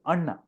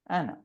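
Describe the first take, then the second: First: The first vowel sounds like the u in but. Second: The name is read with English vowel sounds. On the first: This is how it is said in Tulu. The speaker calls it right. "But in Tulu, it is Anna" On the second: This is how someone who does not know Tulu reads it. The speaker calls it wrong. "So he will read it as Anna because it's A N N A"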